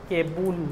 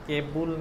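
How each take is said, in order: No difference in how they are said.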